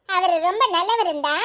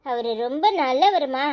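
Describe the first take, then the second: First: Laughing as she repeats the words back; mother laughingly throws the daughter's words back; teasing echo. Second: Mean every word, gently; sincere affection. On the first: Acted. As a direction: tease her with a chuckle. Mother echoes daughter mockingly. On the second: Real, not acted. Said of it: "என்னடி திடீர்னு பாசம் பொங்குது".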